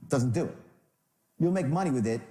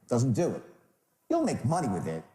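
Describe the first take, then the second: Both takes have the same delivery.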